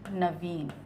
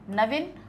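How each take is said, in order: First: The vowel after the v is long. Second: The vowel after the v is short. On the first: The speaker calls it right. "ये वाला हमारा सही है" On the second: The speaker calls it wrong. "ई की जगह ... छोटी की मात्रा लगी ... ये गलत है"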